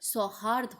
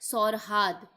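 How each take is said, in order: First: The r sound comes after the h. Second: The r sound comes before the h. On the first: The speaker calls it right. "होना चाहिए था" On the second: The speaker calls it wrong. "गलत है"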